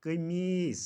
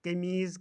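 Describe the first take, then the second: First: कमीस ending in s; कमीस with unbuzzed final s; correct pronunciation. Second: कमीज़ ending in voiced z; कमीज़ with buzzing final z; mispronunciation. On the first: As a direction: say कमीस as qamees. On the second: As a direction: say कमीज़ as qameez. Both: Shown as a demonstration. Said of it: "का सही तलफ़ुज़".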